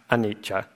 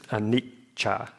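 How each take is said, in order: First: The middle consonant is short and single. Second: The middle consonant is held as a double. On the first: The speaker calls it wrong. "not anicca" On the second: The speaker calls it right. "because of the double C"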